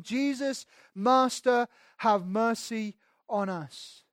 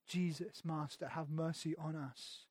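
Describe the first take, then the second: First: High, loud pleading cry; desperate cry for mercy. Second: Soft, slow, pleading; hushed plea. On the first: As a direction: call out to Jesus from afar, begging. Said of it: "lifted up their voices, saying". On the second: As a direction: beg it quietly, almost to yourself. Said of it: "they start shouting". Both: Retold or imitated.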